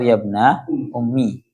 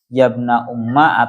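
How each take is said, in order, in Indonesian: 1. Kata terakhir diakhiri dengan vokal 'i'. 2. Kata terakhir diakhiri dengan vokal 'a'. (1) "ummi itu dibaca kasroh" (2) "dibaca fathah"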